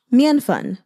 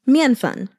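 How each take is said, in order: First: Mian fan said carefully in Mandarin; Mandarin word. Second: Mian fan repeated slowly in Mandarin; Mandarin word. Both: Shown as a demonstration. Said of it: "So mian".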